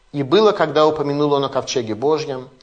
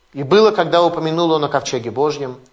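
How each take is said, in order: No difference in how they are said.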